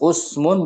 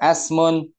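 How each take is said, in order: First: The word begins with a u vowel. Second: The word begins with an a vowel. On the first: "Bukan usmun" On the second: "bukan asmun"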